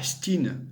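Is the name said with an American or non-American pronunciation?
American. The name is said with an American pronunciation. The speaker calls it wrong. "C'est pas Stein à l'américaine, c'est complètement bidon"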